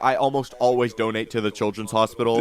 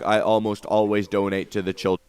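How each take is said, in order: First: It sounds sincere and convincing. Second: It sounds unconvincing and half-hearted.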